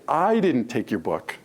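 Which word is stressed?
I. The stress is on the word I.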